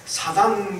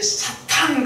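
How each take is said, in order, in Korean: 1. 가운데 자음은 부드러운 D입니다. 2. 가운데 자음은 강한 거센 T입니다. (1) "힘이 잘 안 들어갑니다" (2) "힘이 좀 들어갈 거 아닙니까?"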